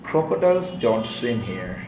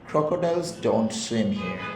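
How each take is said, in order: Both takes have the same delivery.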